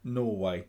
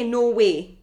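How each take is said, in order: First: Slow Norway, second syllable a full "way"; demonstrating Norway. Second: Norway with a short "weh" ending; disputed Norway. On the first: Shown as a demonstration. Co-host showing how he says the country, Norway with "way". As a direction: say Norway carefully, ending like "way". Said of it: "I say Norway, like the country". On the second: Retold or imitated. Host challenging co-host's pronunciation, Norway ending "weh". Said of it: "You don't say Norway".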